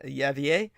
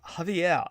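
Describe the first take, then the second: First: The name is said with a Slavic-style pronunciation. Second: The name is said with a Spanish-style pronunciation. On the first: The speaker calls it wrong. "I was trying to Slavicize it uh, with a uh, silent Y" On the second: The speaker calls it right. "that is probably the correct way uh, to pronounce it"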